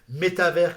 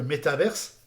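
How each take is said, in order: First: The word ends without a final s sound. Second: The word ends with an audible s sound. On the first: The speaker calls it right. "on va plutôt prononcer métavers" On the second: The speaker calls it wrong. "que métaverse"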